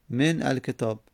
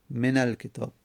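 First: من الکتاب split as "men, alketāb"; unlinked silent n. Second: من الکتاب linked as "menal-ketāb"; n with fatha. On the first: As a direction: keep a break between من and الکتاب. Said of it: "بعد از من چی اومده". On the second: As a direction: run من into الکتاب with an a. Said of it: "پس میگیم من". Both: Shown as a demonstration.

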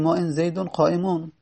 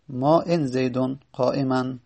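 First: قائمون ending in "-un"; corrected nominative ending. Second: قائما ending in "-an"; incorrect accusative ending. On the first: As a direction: end قائمون on "-un", not "-an". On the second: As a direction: end قائما on "-an", not "-un". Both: Shown as a demonstration. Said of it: "پس اینجا باید بگیم".

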